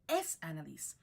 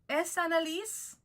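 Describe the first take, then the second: First: The pitch falls at the end. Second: The pitch rises at the end. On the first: It states that this is the person. "to make a statement, the inflection goes down" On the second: It asks whether this is the person. "change the inflection upwards to make it into a question"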